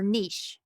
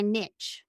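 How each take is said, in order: First: "niche" rhyming with leash; niche as "neesh". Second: "niche" rhyming with rich; niche as "nitch". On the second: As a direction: say "niche" as NITCH, short vowel and final ch. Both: Shown as a demonstration. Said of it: "however you pronounce that".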